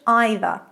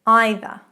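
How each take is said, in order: First: It is pronounced the British way. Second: It is pronounced the British way.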